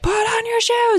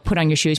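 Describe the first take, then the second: First: It is yelled loudly. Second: It is said calmly, not yelled.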